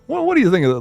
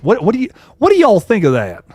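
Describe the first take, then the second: First: A hint of a Southern drawl on the question; light Southern drawl. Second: Said in the usual way. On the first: Shown as a demonstration. Streamer asking the chat again, in a light Southern drawl. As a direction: lean lightly into a Southern accent. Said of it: "put a little Southern drawl on my accent". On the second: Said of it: "let me put a little Southern drawl".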